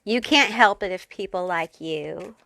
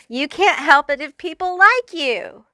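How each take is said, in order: First: Said in the usual way. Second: Higher and louder, leaning on "like"; gleeful insistence that people "like" you; emphatic repeat. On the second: Real, not acted. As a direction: push "like" up high and hit it hard on the repeat. Repeated line, raised and emphatic.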